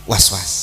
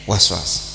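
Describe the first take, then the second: The two takes are said the same way.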